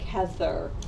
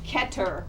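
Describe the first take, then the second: First: The word ends with a th sound. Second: The word ends with a plain t sound. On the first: "rather than Kether"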